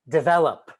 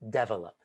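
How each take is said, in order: First: The start does not sound like 'devil'. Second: The start sounds like the word 'devil'. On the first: The speaker calls it right. "develop instead of develop" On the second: The speaker calls it wrong. "There's no devil in develop"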